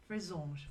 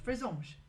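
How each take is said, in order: First: Frésange in a French accent, nasal on, zh ending, falling; French pronunciation. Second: Frésange higher and louder, French nasal on, falling end; confident French pronunciation. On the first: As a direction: repeat Frésange in French to practise. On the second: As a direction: say Frésange boldly with a French ring. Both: Shown as a demonstration. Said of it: "my French accent".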